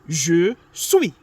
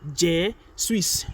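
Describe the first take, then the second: First: The final S sound is silent. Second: The final S sound is pronounced. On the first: The speaker calls it right. "Do not pronounce the last what? The last S" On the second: The speaker calls it wrong. "It is not je suis"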